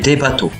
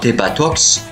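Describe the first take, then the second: First: The word ends on a vowel, x silent. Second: The final x is pronounced as a consonant. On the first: The speaker calls it right. "mais des bateaux" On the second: The speaker calls it wrong. "nous ne dirons pas des batox"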